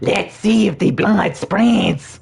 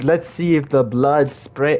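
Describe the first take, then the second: First: It is said in a put-on character voice. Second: It is said in the speaker's plain voice.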